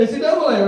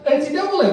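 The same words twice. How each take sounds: First: "N C double A" said as double-A, pitched up; "N C double A" with double spelled out, higher. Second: "N C double A" with double, higher; "N C double A" said double-A style. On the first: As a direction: say "N C double A" saying double, rising bright. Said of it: "or N C double A". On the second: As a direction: repeat "N C double A" lightly raised. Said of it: "we say N C double A". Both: Shown as a demonstration.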